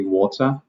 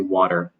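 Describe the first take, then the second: First: The T is crisp and the first vowel rounded. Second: The middle T sounds almost like a D. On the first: "they emphasize the T... they almost sound like an O at the beginning" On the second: "In American English, it sounds like a D almost, right? Like when I say water"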